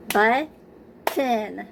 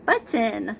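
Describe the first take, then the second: First: Button slowly split as BUT-TON, each syllable hit; clapped syllables. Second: Said in the usual way. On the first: Shown as a demonstration. Teacher clapping out Button for young students, syllable by syllable. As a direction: clap out Button one beat per syllable. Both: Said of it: "So let's clap out the word button".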